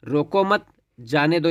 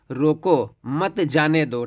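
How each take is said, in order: First: रोको मत run together, then जाने दो; pause after मत. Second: रोको, short pause, then मत जाने दो together; pause after रोको. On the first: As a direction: join मत to रोको, break before जाने दो. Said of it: "यानी इसको रोकिए मत, जाने दीजिए". (मत के बाद विराम) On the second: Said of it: "रोको, कामा लगा हुआ यहाँ पे है". (रोको के बाद विराम) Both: Shown as a demonstration.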